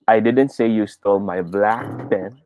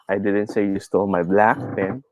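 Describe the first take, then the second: First: The word 'black' carries the main stress. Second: The word 'black' carries the main stress.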